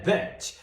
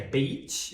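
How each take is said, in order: First: "bitch" with a short, lax i. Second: "beach" with a long, tense ee vowel. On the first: Teacher showing learners a minimal pair, "bitch" with short i. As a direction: keep the vowel of "bitch" short and open. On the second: Teacher showing learners a minimal pair, "beach" with long ee. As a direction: draw out the ee in "beach". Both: Shown as a demonstration. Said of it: "Se você não fizer essa diferença do som".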